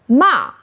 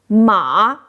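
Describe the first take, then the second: First: The pitch falls sharply from high. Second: The pitch dips low then rises. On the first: It means scold. "Fourth tone ma means scold" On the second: It means horse. "Third tone ma means horse"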